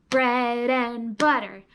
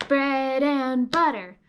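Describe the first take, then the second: Both takes have the same delivery.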